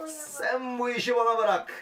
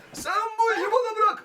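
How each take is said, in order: First: Said in the usual way. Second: Much higher cartoonish voice; high put-on voice. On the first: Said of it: "repeated in a marked take". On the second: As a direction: squeak it out like a cartoon hero. Repeated line in a put-on voice. (tiz komik ses)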